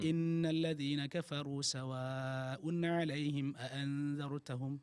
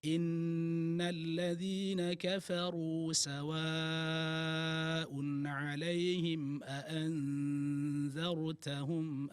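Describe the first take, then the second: First: The verse is recited quickly. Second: The verse is recited slowly. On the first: The speaker calls it wrong. "Kalau yang cepat-cepat begini mungkin" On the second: The speaker calls it right. "kalau bacaannya lambat"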